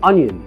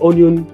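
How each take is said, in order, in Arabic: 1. الكلمة تبدأ بصوت 'uh'. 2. الكلمة تبدأ بصوت 'o'. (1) "انيون مش اونيون" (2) "مش اونيون"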